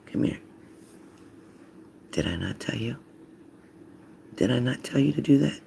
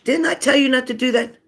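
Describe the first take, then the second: First: Hushed, quiet scolding; whispering to kids. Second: High-pitched, insistent mock scolding; parent's scolding yell. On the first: Acted. Parent getting the kids' attention by whispering. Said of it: "start whispering to 'em". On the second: The usual telling-off kids expect, high scolding yell. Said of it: "if you sit here and say".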